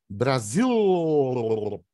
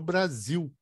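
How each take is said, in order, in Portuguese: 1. A palavra termina com um som de L bem claro. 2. A palavra termina com som de U. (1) "leva o- a, a língua lá na frente e ela fica vibrando" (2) "Virou Brasil com U"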